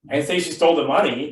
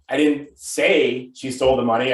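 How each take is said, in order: First: The word 'money' carries the main stress. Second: The word 'say' carries the main stress. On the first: She took something other than the money. "but maybe she stole something else" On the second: It was implied rather than said outright. "I could be implying that she stole it"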